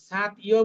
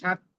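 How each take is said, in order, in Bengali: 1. t আর y আলাদা আলাদা অংশ হিসেবে বলা হয়। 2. t আর y জোড়া লেগে এক গুচ্ছ হয়ে যায়। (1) "আলাদা আলাদা করে পড়লে তো আলাদা হয়ে যাচ্ছে" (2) "আমরা যদি মিলিয়ে পড়ি"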